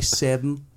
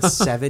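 First: It is said in a drawling Southern accent. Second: It is said in a plain, neutral accent. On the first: "you'd say seven" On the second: "if you said seven"

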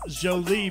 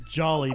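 First: The name is said in a French way. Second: The name is said like English jolly. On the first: This is the original form of the name. "Last name is Jolie" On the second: This is how the family came to say it. "they pronounced it Jolly"

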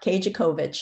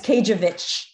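First: The name has a 'co' syllable in the middle. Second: The name has no 'co' syllable in the middle. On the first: The speaker calls it wrong. "not Kajakovich, like everybody wants to say" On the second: The speaker calls it right. "You don't pronounce the CO in the middle"

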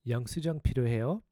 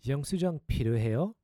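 Both takes have the same delivery.

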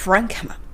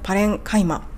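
First: The syllable after 'ren' sounds like 'ki'. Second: The syllable after 'ren' sounds like 'kai'. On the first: The speaker calls it right. "パレンカイマではなく、プランキマのような感じで発音します" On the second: The speaker calls it wrong. "パレンキマをパレンカイマという風に読んでいらっしゃったのが気になった"

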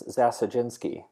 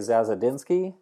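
First: The name is said with Polish sounds, dz like j. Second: The name is said with American English sounds. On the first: "In Polish, it's Zasadzinski. The DZ is a J sound" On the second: "In American English, we would say Zasadzinski"

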